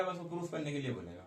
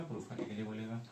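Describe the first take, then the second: First: Said in the usual way. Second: "proof" repeated lower and softer, lingering on "लिए"; quiet emphatic repeat. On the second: Shown as a demonstration. Teacher repeats the answer to students, softly stressing "proof". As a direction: drop the voice and spell out "proof करने के लिए" for the class. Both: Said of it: "क्या करने के लिए बोलेगा?".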